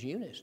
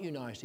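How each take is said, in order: First: Eunice said "YOO-nis", short i at the end; Eunice pronounced yoo-niss, ending clipped short; Eunice the other way. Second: Eunice said "YOU-nice", long i at the end; Eunice pronounced you-nice, ending like the word nice; objector's Eunice. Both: Retold or imitated. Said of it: "Somebody says".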